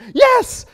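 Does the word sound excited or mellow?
excited. The word is said with high excited energy. The speaker is very happy. "So if you're really excited, people are going"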